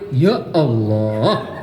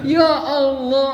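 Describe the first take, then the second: First: It sounds dismayed and weary. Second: It sounds joyful and grateful.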